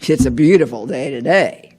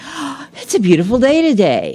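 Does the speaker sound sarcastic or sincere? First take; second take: sarcastic; sincere. First: It sounds sarcastic, not meant to be believed. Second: It sounds sincere, meant to be believed.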